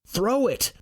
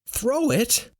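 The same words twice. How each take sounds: First: High-pitched command, THROW pushed hard; shouted order to get rid of it; urgent high call; yelling. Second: High-pitched echo, rising in doubt; incredulous high echo; disbelieving question. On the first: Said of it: "Roar yells". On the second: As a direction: repeat the order back in disbelief. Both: Acted.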